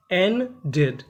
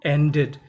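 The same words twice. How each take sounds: First: ended broken as "en... ded"; split into syllables. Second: Said in the usual way. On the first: Shown as a demonstration. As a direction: say ended in two parts, "en" lifted, "ded" dropped. Word broken into syllables for learners.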